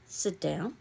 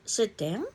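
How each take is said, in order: First: It is said flatly, falling like a statement. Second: It is said with a rising, questioning tune. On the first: It is a plain instruction. "a period" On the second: It asks whether to sit. "a question mark"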